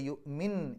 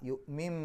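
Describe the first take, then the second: First: The word ends with an n sound. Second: The word ends with an m sound. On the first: The speaker calls it wrong. "എൻ എന്നുള്ള ഉച്ചാരണമല്ല" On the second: The speaker calls it right. "എം എന്നുള്ള ഉച്ചാരണം കൊടുക്കണം"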